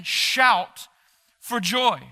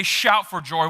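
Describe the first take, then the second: First: A bit higher and brighter, calling out; rally the room with it; shouted for joy. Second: Said in the usual way. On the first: Shown as a demonstration. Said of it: "He's shouting". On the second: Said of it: "why even does he say".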